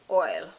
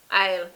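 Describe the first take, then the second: First: It is pronounced with a standard English accent. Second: It is pronounced with a Jamaican patois accent. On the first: "The proper word is oil" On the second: "in Jamaican patois is aisle"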